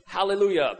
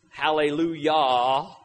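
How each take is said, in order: First: Said in the usual way. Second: Hallelujah drawn out slowly, syllable by syllable; sounded out slowly. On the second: Shown as a demonstration. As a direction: spell out hallelujah slowly, each syllable clear. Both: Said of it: "fun to sound those kind of words out".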